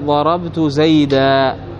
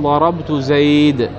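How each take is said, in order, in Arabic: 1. تنتهي الكلمة الأخيرة بصوت 'a' طويل. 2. تنتهي الكلمة الأخيرة بساكن. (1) "لكن الجمهور يقولون ماذا؟" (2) "يقولون ضربت زيد عند الوقف"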